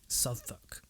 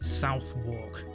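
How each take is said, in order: First: The name is shortened, not matching its spelling. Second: Every letter is sounded, just as it is spelled. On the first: The speaker calls it right. "it's pronounced Southwark. ... I know it makes no bloody sense" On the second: The speaker calls it wrong. "no one better pronounce this as Southwark"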